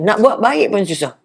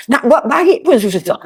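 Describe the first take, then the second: First: Said in the usual way. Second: Slow, laughing sigh of a frustrated helper; rueful laughing. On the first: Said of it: "Ah, contohlah". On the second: Acted. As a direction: let it out slowly through a laugh. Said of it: "Orang yang nak bagi tu lah".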